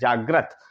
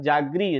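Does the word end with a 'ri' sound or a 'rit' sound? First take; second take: rit; ri. First: The word ends with a 'rit' sound. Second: The word ends with a 'ri' sound. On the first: The speaker calls it right. "सही pronunciation किया जागृत" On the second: The speaker calls it wrong. "री निकला हमारे उच्चारण में"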